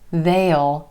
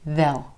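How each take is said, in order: First: It is a contraction with a clear vowel. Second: It is a contraction with a reduced vowel. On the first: "can become they'll" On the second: "most of the time you're going to hear they'll"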